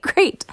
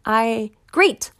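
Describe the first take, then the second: First: "great" squealed much higher in delight; a giddy, high-pitched "great"; excited great. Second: Said in the usual way. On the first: Retold or imitated. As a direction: let the last "great" jump up with glee. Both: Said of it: "So I'm excited".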